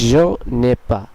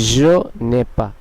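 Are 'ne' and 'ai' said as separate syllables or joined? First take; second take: joined; joined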